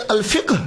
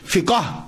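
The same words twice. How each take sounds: First: الفقہ said as "al-fiqh", one closed final syllable; higher, careful "al-FIQH" for الفقہ; difficult correct pronunciation. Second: فقہ said slowly as "fi-kaa"; two-syllable فقہ ending in a long A; common pronunciation. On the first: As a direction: end الفقہ on a tight "qh", no vowel. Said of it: "یہ بولنا ذرا مشکل لگتا ہے ہمیں". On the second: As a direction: draw out the everyday "fikaa" for فقہ. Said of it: "دیکھا نا عام چلتا ہے". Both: Shown as a demonstration.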